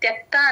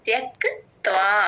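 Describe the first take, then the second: First: The final 'va' sound is dropped. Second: The final 'va' sound is clearly heard. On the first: The speaker calls it wrong. "త్యక్త్వా అనే త్యక్త అనేస్తారు, వా వదిలేస్తారు" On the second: The speaker calls it right. "ఇక్కడ త్యక్త్వా clear గా వినిపించాలి"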